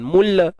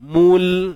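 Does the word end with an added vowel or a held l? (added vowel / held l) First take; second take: added vowel; held l. First: The l is released into an added vowel. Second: The word ends on a firmly held l sound. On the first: The speaker calls it wrong. "Jangan terlepas. Nanti jadi mula" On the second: The speaker calls it right. "pegang makhraj lam ni baik-baik"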